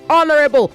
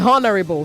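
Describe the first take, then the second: First: The opening h sound is silent. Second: The opening h sound is pronounced. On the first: The speaker calls it right. "say honorable" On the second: The speaker calls it wrong. "Don't say honorable"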